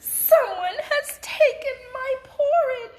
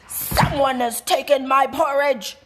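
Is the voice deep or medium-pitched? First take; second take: medium-pitched; deep. First: It is said in a medium-pitched voice. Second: It is said in a big, deep voice.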